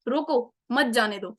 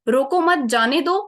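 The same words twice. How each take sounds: First: The pause comes after the word 'roko'. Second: The pause comes after the word 'mat'. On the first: Stop him, don't let him go. "Second क्या feel हो रहा है कि उसको रोको, अभी जाने मत दो उसको" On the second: Don't stop him, let him go. "First example"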